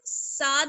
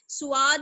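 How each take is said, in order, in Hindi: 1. पहली आवाज़ पतली और हल्की है। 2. पहली आवाज़ के बाद एक अतिरिक्त u-ग्लाइड आती है। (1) "साद नहीं पढ़ना है" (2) "सुआद नहीं पढ़ना है"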